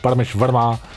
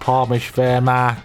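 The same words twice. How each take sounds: First: It is said in his normal voice. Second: It is said in a put-on British voice.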